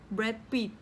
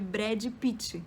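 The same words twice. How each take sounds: First: It is said with a Spanish pronunciation. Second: It is said with a Brazilian Portuguese pronunciation. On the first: "que a gente fala em espanhol" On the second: "Aqui é Brad Pitt"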